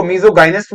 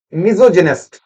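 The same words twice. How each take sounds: First: मिसोगाइनिस्ट with hard g, '-guy-nist'; alternative hard-g pronunciation. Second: मिसोजिनिस्ट with a 'j' sound, '-jinist'; soft-g pronunciation. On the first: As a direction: say the middle of मिसोगाइनिस्ट like 'guy'. (मिसोगाइनिस्ट में 'गाइ' का उच्चारण) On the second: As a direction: say the middle of मिसोजिनिस्ट as 'jin'. (मिसोजिनिस्ट में 'जि' का उच्चारण) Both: Shown as a demonstration. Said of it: "कुछ लोग इसको मिसोगाइनिस्ट बोलते हैं".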